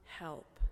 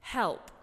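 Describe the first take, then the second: First: Low, much softer cry for help; quiet plea. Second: Short, firm, falling cry for help; exasperated plea. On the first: Preacher voicing a possessed man's plea, low and hushed. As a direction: let the word sink almost away. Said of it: "but with cries of". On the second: Worn-out relative of a squirmy three-year-old, bluntly asking for help. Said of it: "another way of saying". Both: Retold or imitated.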